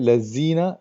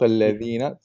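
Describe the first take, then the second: First: The middle consonant is a 'z' sound. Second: The middle consonant is a soft 'th' sound. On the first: The speaker calls it wrong. "when your tongue is inside, then that's not correct" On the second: The speaker calls it right. "this is a Dhal"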